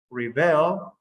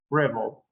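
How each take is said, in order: First: Rebel as re-BEL with a rising end; stress on second syllable. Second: Rebel as REB-el, low falling finish; stress on first syllable. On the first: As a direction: push the last syllable of rebel upward. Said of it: "the first one is at the end". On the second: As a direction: stress the start of rebel and fall. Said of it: "at the beginning". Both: Shown as a demonstration.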